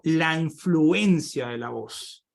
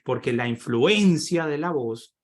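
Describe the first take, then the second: First: Slow, with "influencia" stressed and drawn out; "La influencia de la voz" spoken slowly, "influencia" stressed; emphasis on influencia. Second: Slow, with weight on "influencia"; "influencia" stressed within a slow phrase. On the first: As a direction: lean hard on "influencia". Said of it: "Entonces yo digo". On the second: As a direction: press on "influencia" again in passing. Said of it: "hago énfasis". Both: Shown as a demonstration.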